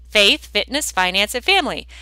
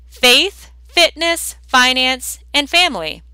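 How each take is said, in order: First: Said in the usual way. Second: "Faith, fitness, finance, and family" each word set apart and stressed for writing down; dictated list. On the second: Shown as a demonstration. Coach dictating the four Fs to listeners, each word slow and stressed. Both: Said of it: "Write these down".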